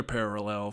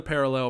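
First: "parallel" with a stretched, doubled middle vowel; odd pronunciation. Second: Said in the usual way. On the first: Real, not acted. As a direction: stumble slightly through the middle of "parallel". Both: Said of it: "I just said parallel real weird".

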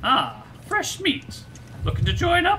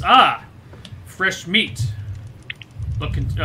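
First: Much higher, squeaky woman's voice; girl's voice. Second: Gruff, loud raider taunt; feral wasteland raider. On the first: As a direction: redo the line as a tough woman. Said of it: "I will figure out how to do a girl's voice". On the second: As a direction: sneer at the newcomers like a raider. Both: Acted.

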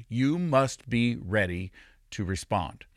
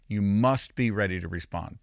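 First: "You must be ready to respond" slowly, with weighty pauses; deliberate, measured charge on "ready to respond"; slow emphasis. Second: Said in the usual way. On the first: Real, not acted. Slow first take of repeated charge.

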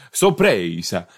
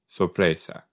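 First: Hammed-up Italian accent, stressed middle syllable. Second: Spanish word with a slight Italian accent. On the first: Shown as a demonstration. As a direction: lean into an Italian "sorpresa". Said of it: "said it in an Italian accent". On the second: Real, not acted. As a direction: give "sorpresa" a light Italian colouring. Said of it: "just said it in an Italian accent".

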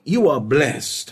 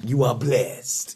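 First: Said in the usual way. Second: Put-on playful Italian accent, lower and slower. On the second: Preacher joking while blessing a listener, playful Italian accent. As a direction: say it slowly as a mock Italian. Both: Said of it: "in an Italian accent".

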